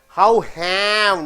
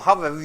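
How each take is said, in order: First: The word 'have' is full and stressed. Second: The word 'have' is weak and unstressed. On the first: The speaker calls it wrong. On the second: The speaker calls it right. "Have unstressed"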